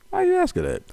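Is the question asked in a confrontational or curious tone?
curious. It is asked in a harmless, curious tone.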